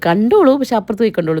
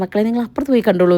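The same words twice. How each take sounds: First: അപ്പുറത്ത് pressed a little louder; playful emphasis on അപ്പുറത്ത് പോയി; stress on അപ്പുറത്ത്. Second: Said in the usual way. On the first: Retold or imitated. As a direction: make the point that they should watch it elsewhere. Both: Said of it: "അപ്പോൾ ഞാൻ പറയും".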